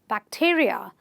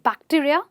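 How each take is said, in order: First: The stress falls on the syllable before the suffix. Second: The stress falls away from the pre-suffix syllable. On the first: The speaker calls it right. "you will say bacteria" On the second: The speaker calls it wrong. "not bacteria"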